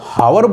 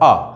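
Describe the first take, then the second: First: The word begins with an h sound. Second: The word begins with a vowel, no h. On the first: The speaker calls it wrong. "यदि आप इसको हावर बोलते बोलेंगे तो गलत ही article लगाएंगे" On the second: The speaker calls it right. "इसका सही जो प्रोनाउंसिएशन है वो है आ"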